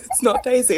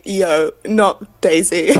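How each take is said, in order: First: Said in the usual way. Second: Laughing quote. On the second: Retold or imitated. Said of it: "making a post on Instagram being like".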